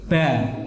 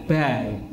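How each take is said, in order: First: The letter is said with a light, open vowel. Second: The same.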